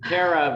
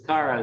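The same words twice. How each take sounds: First: The first syllable sounds like the word 'care'. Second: The first syllable does not sound like 'care'. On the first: The speaker calls it wrong. "I was reading Cara" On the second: The speaker calls it right. "make sure I'm saying Cara"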